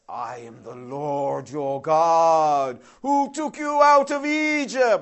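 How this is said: It is said in a grand godlike voice.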